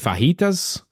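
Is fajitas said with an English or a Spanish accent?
Spanish. It is said with an exaggerated Spanish accent. The speaker is trying to sound authentic. "try to roll R's when it's not natural"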